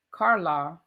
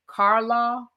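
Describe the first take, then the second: First: Lower, imitating Marie's accent on "Carla", the end vowel rounded to "Carlo". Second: Said in the usual way. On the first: Host mimics Marie's accent saying "Carla" for the chat. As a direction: say "Carla" lightly in Marie's accent, not her own. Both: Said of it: "you trying to say that with her, um, accent".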